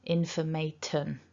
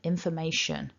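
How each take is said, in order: First: The ending starts with a t sound. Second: The ending starts with a sh sound. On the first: The speaker calls it wrong. "very common for people to pronounce this word something like informaton" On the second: The speaker calls it right. "it's a sh, shun"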